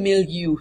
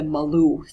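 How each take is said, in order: First: The word sounds like 'mil-yoo'. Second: The word sounds like 'ma-loo'. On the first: The speaker calls it right. "it's the milieu" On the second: The speaker calls it wrong. "not the Malou"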